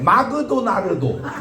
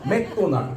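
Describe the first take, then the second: First: It is said with vowels added between consonants. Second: It is said compactly, without added vowels. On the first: The speaker calls it wrong. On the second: The speaker calls it right.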